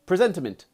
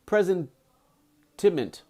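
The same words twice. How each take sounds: First: Said in the usual way. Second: "presentiment" slowly broken into syllables; sounding out. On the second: Shown as a demonstration. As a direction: sound out "presentiment" piece by piece, drawn out. Sounding out a difficult word.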